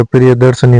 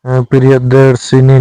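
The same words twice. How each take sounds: First: प्रियदर्शनी with a short a after श; correct form. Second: प्रियदर्शिनी with a long i after श; wrong form. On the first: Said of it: "प्रियदर्शनी होता है". (सही उच्चारण प्रियदर्शनी, श के बाद अ) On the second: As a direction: say प्रियदर्शिनी as the wrong version, -शिनी. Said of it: "प्रियदर्शिनी नहीं होता". (गलत उच्चारण प्रियदर्शिनी, श पर दीर्घ ई) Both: Shown as a demonstration.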